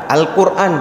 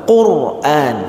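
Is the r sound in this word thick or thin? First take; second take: thin; thick. First: The r sound is light and thin. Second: The r sound is heavy and thick. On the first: It is said as an everyday local word. "ra-nya itu tipis" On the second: It is recited as Quranic text. "ra-nya harus tebal"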